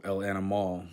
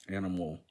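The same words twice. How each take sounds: First: "animal" ending in a full "mall"; Spanish ending. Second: Said in the usual way. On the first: Shown as a demonstration. Learner giving a Spanish example, "animal" ending in full "al". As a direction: say "el animal" with an open final vowel. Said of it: "stressed at the last syllable". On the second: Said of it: "words that end in al".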